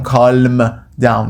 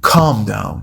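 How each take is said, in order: First: "calm" with the L wrongly sounded; wrong pronunciation. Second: "calm" with a silent L; correct pronunciation. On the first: Teacher showing learners the mistake, "calm" with audible L. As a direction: say the L in "calm", drawn out. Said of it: "ال calm ناخواناست. نمیگم calm down". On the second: Teacher modelling for learners, "calm" with silent L. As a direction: leave the L out of "calm". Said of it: "ال calm ناخواناست". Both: Shown as a demonstration.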